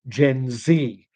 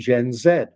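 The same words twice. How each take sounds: First: Z is said the American way, as zee. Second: Z is said the Canadian way, as zed.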